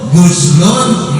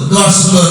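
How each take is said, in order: First: The first vowel is a rounded u. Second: The first vowel is an open a. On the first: It means bathing. "Kalau oginnya dibaca doma itu mandi" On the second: It means washing something. "Kalau oginnya dibaca fathah basuhan"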